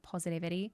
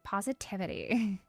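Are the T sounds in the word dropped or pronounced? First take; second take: dropped; pronounced. First: The T sounds are dropped or swallowed. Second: The T sounds are clearly pronounced. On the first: The speaker calls it wrong. "They're not like positivity" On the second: The speaker calls it right. "they do say their T's"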